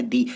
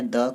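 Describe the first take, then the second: First: दी said with a long "ee" vowel, like "thee"; long "thee" sound. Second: द said as a short "thuh" with a neutral vowel; short "the" sound. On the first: Teacher showing the other way students say the article: दी as long "thee". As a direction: stretch दी into "dee". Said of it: "कोई बोलता है दी". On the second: Teacher showing one way students say the article: द as short "thuh". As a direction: say द clipped, like "duh". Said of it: "कोई बोलता है द". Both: Shown as a demonstration.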